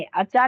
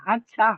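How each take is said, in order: First: अच्छा with a plain, unaspirated च; अच्छा without the breathy ह sound; unaspirated achha. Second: अच्छा with a strong breathy छ; अच्छा, the छ pushed out with air; aspirated chha. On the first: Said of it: "अच्छा नहीं बोलेंगे". (बिना ह की आवाज़ के अच्छा) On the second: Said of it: "ह की आवाज आई ना". (छ में ह की आवाज़ के साथ अच्छा) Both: Shown as a demonstration.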